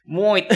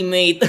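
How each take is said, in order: First: Broad mock Australian. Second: Mock Australian accent. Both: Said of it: "I'm gonna practice my accent".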